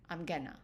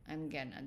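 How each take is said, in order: First: The words are shortened and run together. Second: The same.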